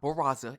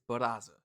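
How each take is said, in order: First: The name is said with an American pronunciation. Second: The name is said with a non-American pronunciation. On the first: The speaker calls it wrong. "It's not Barraza" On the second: The speaker calls it right. "So it's the second way"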